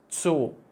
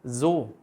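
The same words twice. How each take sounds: First: The word begins with a sharp ts sound. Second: The word begins with a soft buzzing z sound. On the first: The speaker calls it right. "you really have to make the Z, ts" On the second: The speaker calls it wrong. "you make it z, then the word will sound like the second word"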